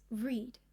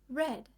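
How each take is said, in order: First: The word does not sound like red. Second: The word sounds like the color red. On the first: It is the present tense. "One way to say this verb is read. I read every day" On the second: It is the past tense. "Another way to say this verb is read. I read yesterday"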